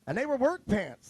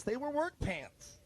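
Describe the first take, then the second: First: Said in the usual way. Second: "work" leaned on, slower and softer; drawn-out, softer insistence on "work"; slow emphatic repeat. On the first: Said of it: "You got 'em at the feed store". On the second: Shown as a demonstration. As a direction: hammer home "They were work pants" slowly. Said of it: "They weren't dress pants".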